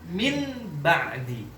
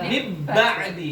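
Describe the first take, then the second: First: The n is said fully and clearly. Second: The n is merged fully into the b. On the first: "diidhar nggak cocok, nggak enak lah" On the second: "Idghamkan, diidghamkan ke ba"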